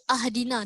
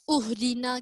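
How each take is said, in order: First: The word begins with an a vowel. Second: The word begins with a u vowel. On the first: "ke ahdina, tidak" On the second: "ke uhdina"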